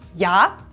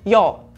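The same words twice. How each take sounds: First: The vowel is a clear a sound. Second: The vowel is shifted toward an o sound. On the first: "das A" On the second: "zu einem O"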